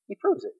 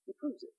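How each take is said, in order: First: Said in the usual way. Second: Softer, almost whispered; hushed. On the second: Real, not acted. Pastor driving home his point, hushed and soft. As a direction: drop the voice to let it land. Repeated point, dropped low.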